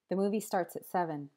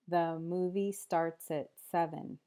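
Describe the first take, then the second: First: The sentence is spoken at a fast pace. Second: The sentence is spoken at a slow pace. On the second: "then slower"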